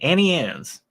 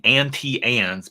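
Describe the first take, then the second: First: The words run together and the t is dropped. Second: The words are separate and the t is sounded. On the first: The speaker calls it wrong. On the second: The speaker calls it right.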